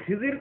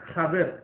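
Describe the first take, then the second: First: The name is said as Khizir. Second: The name is said as Khader. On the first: The speaker calls it wrong. "উচ্চারণটা আসলে ভুল" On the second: The speaker calls it right. "আরো বেশি আহ, সহি উচ্চারণ"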